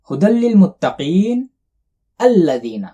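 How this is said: There is a pause before the last word.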